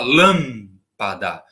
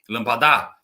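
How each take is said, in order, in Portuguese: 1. A tônica está na primeira sílaba. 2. A tônica está na última sílaba. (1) "Olha como lam é o mais forte" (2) "Se falasse assim, seria acento nesse dá, mas não é"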